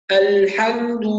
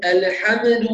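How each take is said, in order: First: "الحمد" with l and m held still, "al-hamdu"; correct still consonants. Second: "الحمد" with little vowels after l and m, "ala-hamadu"; voweled silent letters. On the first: Teacher models it, الحمد with clean silent letters and complete vowels. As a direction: give "الحمد" full vowels only where they belong. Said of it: "هكذا". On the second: Teacher shows students the error, الحمد with its silent letters voweled. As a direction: bounce the still consonants of "الحمد" into extra vowels. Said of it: "بعض الناس تحرك السواكن". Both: Shown as a demonstration.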